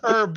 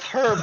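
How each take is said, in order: First: The word starts without an h sound. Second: The word starts with an h sound. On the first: The speaker calls it right. "You don't say the uh, H" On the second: The speaker calls it wrong. "It's not herb"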